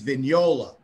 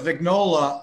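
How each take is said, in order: First: The name is said with an Italian 'gn' sound. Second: The name is said the plain English way. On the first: This is the original pronunciation that nobody uses. "the Italian pronunciation, which nobody ever uses" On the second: This is how people commonly say the name. "that is the way people actually say it"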